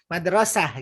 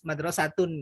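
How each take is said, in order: First: The word ends with an h sound. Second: The word has a t sound before its ending. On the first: The word ends the phrase at a pause. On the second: The word continues into the following speech.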